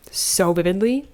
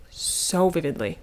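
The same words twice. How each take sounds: First: Said in the usual way. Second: Vividly stretched slowly; savoring the memory, said slowly; slow, drawn-out repeat. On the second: Shown as a demonstration. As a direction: linger on so vividly.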